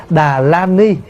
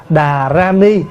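First: Đà la ni with L in la; L reading. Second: Đà ra ni with R in ra; R reading. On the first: Monk shows the acceptable alternative reading, L pronunciation. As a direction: say đà la ni, middle syllable starting with L. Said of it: "Thay vì mình đọc là đà la ni". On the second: Monk shows the reading nearer Sanskrit, R pronunciation. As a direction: say đà ra ni, middle syllable starting with R. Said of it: "nó gần hơn". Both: Shown as a demonstration.

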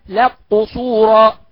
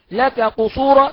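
First: "لك قصورا" slowly as laq-qusura; kaf merged into qaf. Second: Said in the usual way. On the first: Shown as a demonstration. Teacher giving the kaf example, "لك قصورا" merged as laq-qusura. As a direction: double the q, no k left in "لك قصورا". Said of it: "نقول". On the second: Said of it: "مثال الكاف".

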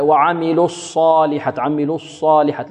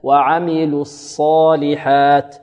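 First: Student's error, a rounded ص in "الصالحات"; chanted "الصالحات" with wrongly pursed lips on ص; mistaken lip rounding. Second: Slow chant, lips released before the ص of "الصالحات"; no lip rounding on ص in "الصالحات"; unrounded ص. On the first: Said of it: "وهذا يخطئ فيه بعض الطلاب". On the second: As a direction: corrective recitation, clean unrounded ص in "الصالحات". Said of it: "لا تضم الشفتين في الصاد". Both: Shown as a demonstration.

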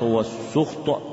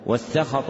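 First: والسخط said "was-sukht", with a u after the s; damma on the sin. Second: والسخط said "was-sakhat", with an a after the s; fatha on the sin. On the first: (والسخط بضم السين وسكون الخاء) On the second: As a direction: say والسخط with open a vowels, "sakhat". (والسخط بفتح السين والخاء) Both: Shown as a demonstration. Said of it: "بفتح السين وضمها لغتان صحيحتان".

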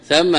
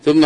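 First: ثم said as thamma, open a on the tha, doubled meem. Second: ثم said as thumma, u on the tha, doubled meem; thumma with u vowel. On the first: Teacher naming the place adverb, careful pronunciation. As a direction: say ثم with fatha on the tha and a held double m. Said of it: "بفتح الثاء والميم مشددة". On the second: Teacher contrasting the conjunction, careful pronunciation. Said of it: "وليست هي ثم". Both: Shown as a demonstration.

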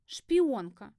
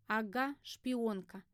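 First: "шпионка" louder, falling at the end; "шпионка" pushed out as an admission; reluctant confession. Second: "шпионка" thrown back without force; dry echo. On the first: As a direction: blurt out "шпионка" after hesitating. Roommate blurts the accusation. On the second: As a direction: echo "шпионка" in an understated, sceptical way. Heroine drily echoes the accusation. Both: A narrator's reading.

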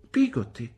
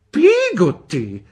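First: Said in the usual way. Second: "Pigotti!" slow, high and loud in outrage; indignant. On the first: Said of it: "disse mia madre". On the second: A narrator's reading. Aunt Betsy repeating the servant's name, indignant. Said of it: "ripeté indignata Miss Betsy".

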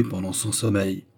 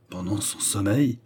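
First: Said in the usual way. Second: "Pendant son sommeil" rising at the end on "sommeil"; incredulous question. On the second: A narrator's reading. Malcolm hears of the planned killing, "Pendant son sommeil" rising in disbelief. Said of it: "répéta Malcolm incrédule".

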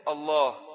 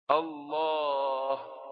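First: الله with the opening hamza drawn out long; stretched hamza. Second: الله with the lam held very long and slow. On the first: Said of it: "لا إن مد همزة". (الله بمد الهمزة) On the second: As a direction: draw out the lam of الله at length. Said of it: "إن مد اللام". (الله بمد اللام الطويل) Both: Shown as a demonstration.

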